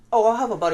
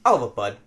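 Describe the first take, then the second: First: Higher, louder, easygoing order; the politer version, imitated. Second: Imitated curt order. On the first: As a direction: lift it up like a friendly customer. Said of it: "not like". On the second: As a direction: drop it down, no friendliness. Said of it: "He's like".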